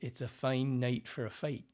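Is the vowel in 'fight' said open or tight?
tight. The vowel in 'fight' is tight and raised.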